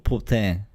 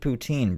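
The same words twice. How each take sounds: First: It is said with a French accent. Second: It is said with an English accent. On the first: The speaker calls it wrong. "like the French accent" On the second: The speaker calls it right. "You're not French"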